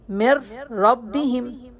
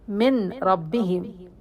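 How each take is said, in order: First: The n sound disappears into the following r. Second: The n sound is pronounced before the r. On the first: The speaker calls it right. "we must cancel noon sakina completely" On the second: The speaker calls it wrong. "We cannot read it like this"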